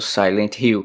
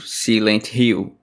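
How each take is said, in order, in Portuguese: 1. O nome é dito com sotaque inglês. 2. O nome é dito com sotaque português. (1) "na verdade eu deveria ter pronunciado Silent Hill" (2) "eu falei o vídeo inteiro Silent Hill"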